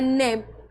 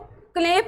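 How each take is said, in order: First: The word begins with an n sound. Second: The word begins with a sounded k. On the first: The speaker calls it right. "यह है नेप" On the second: The speaker calls it wrong. "अब इसको क्लेप नहीं पढ़ना"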